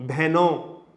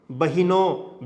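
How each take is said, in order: First: Said in the usual way. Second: Drawn-out rustic "बहिनों"; "बहिनों" spoken the village way, bah-i-non; colloquial form. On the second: Shown as a demonstration. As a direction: say "बहिनों" as bahinon, with an extra i between b and h. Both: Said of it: "ऐसा कर देते हैं".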